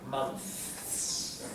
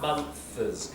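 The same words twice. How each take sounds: First: The word is said as one syllable. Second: The word is split into two syllables. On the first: The speaker calls it right. "It's one syllable and it's hard to say" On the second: The speaker calls it wrong. "Can you hear how that's two syllables?"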